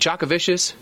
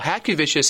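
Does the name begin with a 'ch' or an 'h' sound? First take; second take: ch; h. First: The name begins with a 'ch' sound. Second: The name begins with an 'h' sound. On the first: The speaker calls it wrong. "Is it Chakovicious?" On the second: The speaker calls it right. "It's Hat. Disregard the C"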